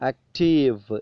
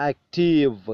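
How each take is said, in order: First: The final v sound is clearly pronounced. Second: The same.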